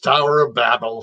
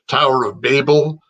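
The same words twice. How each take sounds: First: Babel is said like the start of Babylon. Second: Babel is not said like the start of Babylon. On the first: This is the speaker's own way, from growing up near New York. "Babylon is the express stop on the L I R R. That's why it's Tower of Babel for me" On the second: This is how some communities in the south and west say it. "if you come from certain communities to the south, to the west"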